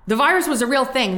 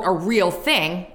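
First: "the virus was a real thing" said straight, pitch high on "virus"; sincere emphasis. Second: Slow, skeptical air quotes. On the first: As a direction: stress "virus" and mean "real thing" plainly. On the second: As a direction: say it like it's in scare quotes. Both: Shown as a demonstration.

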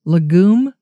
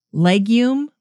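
First: Legume? said luh-GOOM, stress on the second syllable, no y sound; "Legume?" as luh-GOOM, a questioning rise; trying legume. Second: Legume? said LEG-yoom, stress on the first syllable; "Legume?" as LEG-yoom, a questioning rise; trying legume. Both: Shown as a demonstration. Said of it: "Is it legume?".

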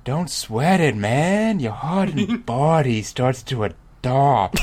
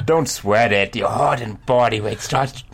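First: Higher-pitched easygoing dude; drawn-out character voice, higher than usual; corrected dude voice. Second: Put-on reader voice at an even pitch; first try at voicing the dude, later dropped; wrong character voice. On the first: Acted. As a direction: reassure like a laid-back dude, pitched up. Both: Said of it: "That's wrong voice for this dude".

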